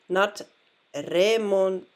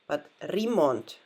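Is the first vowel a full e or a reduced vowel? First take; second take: full e; reduced. First: The first vowel is a full e. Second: The first vowel is reduced and weak. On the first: The speaker calls it wrong. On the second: The speaker calls it right. "So there the E changes"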